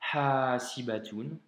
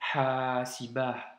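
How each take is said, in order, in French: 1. Le mot finit par un « tun » bien net. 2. Le mot finit par un « ah » doux. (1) "tu peux soit le prononcer de cette manière" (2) "ou bien"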